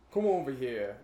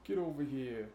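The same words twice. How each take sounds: First: Put-on Italian-American accent. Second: Put-on East Coast accent. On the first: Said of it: "Does that really sound Italian to you?". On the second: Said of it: "how it went from that to".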